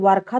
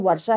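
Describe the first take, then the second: First: The middle consonant sounds like 'kh'. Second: The middle consonant sounds like 'sh'. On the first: The speaker calls it wrong. "वर्षा तो हम नहीं बोलते हैं" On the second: The speaker calls it right. "वर्षा ही बोलते हैं"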